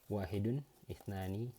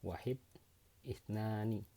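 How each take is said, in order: First: The word endings are fully pronounced with -un. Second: The word endings are dropped, ending on consonants. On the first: The speaker calls it right. "Ini harusnya kalau belajar dibaca tetap" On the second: The speaker calls it wrong. "tadi dimatiin belakangnya sama aku ya, sorry"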